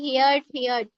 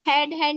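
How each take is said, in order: First: The vowel is long, like in 'here'. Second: The vowel is short, like in 'head'. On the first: The speaker calls it right. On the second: The speaker calls it wrong. "हेड हेड नहीं"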